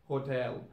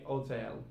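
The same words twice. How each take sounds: First: "hotel" with the H at the start; H sounded. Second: "hotel" said as "'otel"; H dropped. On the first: Teacher giving the normal English form, "hotel" with its H. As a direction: begin "hotel" on a clear H. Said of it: "drop the sound of H". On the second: Teacher showing learners Cockney British, "hotel" without H. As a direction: start "hotel" straight on the O. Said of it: "So in Cockney British". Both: Shown as a demonstration.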